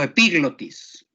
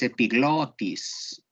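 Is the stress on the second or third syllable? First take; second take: second; third. First: The stress is on the second syllable. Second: The stress is on the third syllable. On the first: The speaker calls it wrong. "Quien haya dicho epiglotis la pronunció mal, porque no lleva acento gramatical" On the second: The speaker calls it right. "Es epiglotis"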